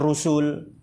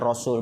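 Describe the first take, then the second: First: The first vowel is u. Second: The first vowel is a. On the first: The speaker calls it wrong. "bukan Rusul" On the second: The speaker calls it right. "itu dibaca Rasul"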